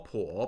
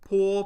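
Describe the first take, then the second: First: The pitch dips low then rises. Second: The pitch stays high and level.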